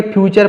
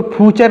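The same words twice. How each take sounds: First: फ्यूचर with a y-glide, as "phyoochar"; correct फ्यूचर pronunciation. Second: फ्यूचर without its y-glide, as "phoochar"; mispronounced फ्यूचर. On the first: Teacher giving learners the proper reading, फ्यूचर pronounced "phyoochar". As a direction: say फ्यूचर as "phyoo-char", keeping the y sound. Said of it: "फ्यूचर पढ़ेंगे". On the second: Teacher showing learners how not to read it, फ्यूचर mispronounced as "phoochar". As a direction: say फ्यूचर as "phoo-char", dropping the y sound. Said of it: "इसको फ्यूचर नहीं पढ़ेंगे". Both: Shown as a demonstration.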